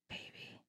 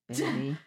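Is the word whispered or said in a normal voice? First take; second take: whispered; normal. First: It is said in a whisper. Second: It is said in a normal voice.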